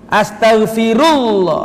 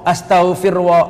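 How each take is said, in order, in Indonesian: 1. Bunyi 'u' mengikuti 'astaghfir'. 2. Bunyi 'wa' mengikuti 'astaghfir'. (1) "Yang betul apa? ... ada dhammanya" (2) "orang awam biasanya ... Firwa, kok bisa fir ketemu wa"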